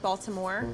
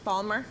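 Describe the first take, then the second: First: The name is said in full, all syllables. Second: The name is said quickly, syllables dropped. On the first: "So it's something like Baltimore" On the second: "saying it quickly"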